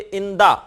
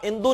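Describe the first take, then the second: First: The word ends with an a vowel. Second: The word ends with an u vowel. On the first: The speaker calls it right. "बल्कि इंदा" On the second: The speaker calls it wrong. "कभी आप इंदू नहीं पढ़ेंगे"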